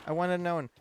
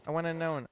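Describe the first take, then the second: No difference in how they are said.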